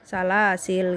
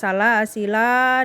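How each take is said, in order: First: The word ends on a bare consonant. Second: The word ends with a long final vowel. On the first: "alifnya tidak dibaca" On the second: "kalau waqaf dibaca dengan dua cara"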